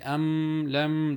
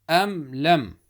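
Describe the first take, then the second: First: The m sound is held and lengthened. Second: The m sound is short, not held. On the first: The speaker calls it wrong. "Don't say am lam. That's wrong" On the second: The speaker calls it right. "read without holding"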